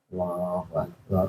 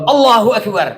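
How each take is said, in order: First: It is said quietly. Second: It is said loudly.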